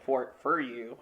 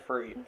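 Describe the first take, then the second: First: Said in the usual way. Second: "for you" slipping into a Utah "fer"; Utah accent. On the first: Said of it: "my Utah accent came out for a minute". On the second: Real, not acted. Reading a valentine to his co-host, Utah accent on "for you". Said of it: "my Utah accent came out".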